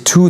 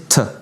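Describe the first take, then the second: First: The word is said with a full vowel. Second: The word is said with a reduced vowel. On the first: "n'est jamais prononcé to dans la langue orale" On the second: "il est réduit"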